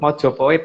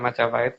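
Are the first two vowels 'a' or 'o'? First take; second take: o; a. First: The first two vowels sound like 'o'. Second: The first two vowels sound like 'a'. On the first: The speaker calls it right. "bukan Majapahit" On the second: The speaker calls it wrong. "bukan Majapahit"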